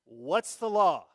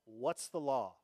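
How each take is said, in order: First: What's the law said again, loud and slow; demanding repeat. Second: Said in the usual way. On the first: Retold or imitated. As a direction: insist like a petitioner who wants rules. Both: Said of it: "they just wanted to know".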